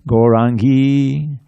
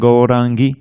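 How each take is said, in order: First: The final i vowel is long. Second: The final i vowel is short. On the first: The speaker calls it wrong. "So it's not Gaurangi" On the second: The speaker calls it right. "They're all short"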